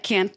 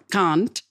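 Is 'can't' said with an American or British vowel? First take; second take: American; British. First: The vowel is the flat American 'a' sound. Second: The vowel is the broad British 'ah' sound. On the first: The speaker adapted to the local accent. "I had to like change it over to bathroom and can't" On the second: The speaker kept the accent of their upbringing. "his accent didn't change. And he still says can't"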